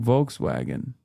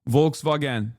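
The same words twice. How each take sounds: First: The word is said with English pronunciation. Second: The word is said with Turkish pronunciation. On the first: "I didn't say it wrong" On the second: "is how we say it in Turkish"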